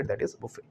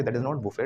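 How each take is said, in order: First: "buffet" said as "bufay" with a silent t, softly; teacher giving the right "buffet" with no t at the end; correct buffet. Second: "buffet" said the wrong way, with the t sounded as "bufet"; teacher showing how students say "buffet", with the t sounded. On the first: Correct "buffet" as bufay, quietly. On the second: Mocking the wrong "buffet" as bufet. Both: Shown as a demonstration.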